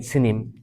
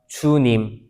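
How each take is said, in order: First: The first vowel is said without rounded lips. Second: The first vowel is said with rounded lips. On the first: The speaker calls it wrong. "이 뽀뽀를 안 하면" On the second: The speaker calls it right. "주님 할 때는 입술이 뽀뽀를 해야 돼요"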